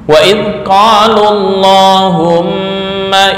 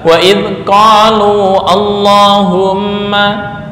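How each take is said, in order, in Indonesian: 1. Vokal akhir qalu pendek, tersambung ke kata berikutnya. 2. Vokal akhir qalu dibaca panjang. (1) "wawunya dibuang" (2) "Enggak boleh dibaca"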